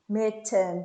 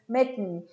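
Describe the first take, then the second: First: The T is released as a clear T. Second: The T is a glottal stop in the throat. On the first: The speaker calls it wrong. "that's what you want to hear" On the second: The speaker calls it right. "the correct pronunciation is mitten"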